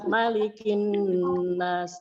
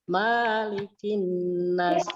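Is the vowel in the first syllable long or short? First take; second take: short; long. First: The first vowel, ma, is kept short. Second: The first vowel, ma, is drawn out long. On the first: The speaker calls it right. "ma-nya pendek" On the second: The speaker calls it wrong. "Itu adalah salah"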